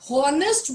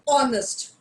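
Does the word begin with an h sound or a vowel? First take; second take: h sound; vowel. First: The word begins with a sounded h. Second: The word begins with a vowel, h silent. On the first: The speaker calls it wrong. "you will hear honest, which is incorrect" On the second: The speaker calls it right. "It is honest"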